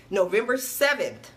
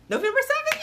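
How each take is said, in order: First: Said in the usual way. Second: Very high thrilled squeal on "November seventh"; excited squeal. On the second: Real, not acted. Announcing the date, squealing "November seventh" in delight. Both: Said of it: "I'm excited".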